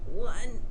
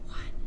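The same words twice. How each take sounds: First: The voice is tight, pressed and effortful. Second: The voice is a breathy whisper without tone. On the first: "effortful strained voicing" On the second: "followed by an example of whispering"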